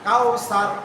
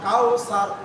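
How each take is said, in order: No difference in how they are said.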